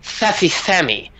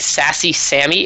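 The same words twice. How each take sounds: First: The s sounds are lisped like th. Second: The s sounds are plain hissing sounds. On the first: This is how speakers from Spain say it. "It's like it's like using like the th sound" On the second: This is the usual way speakers here say it. "instead of like saying"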